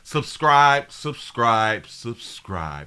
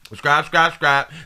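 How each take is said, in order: First: It is said slowly. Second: It is said fast.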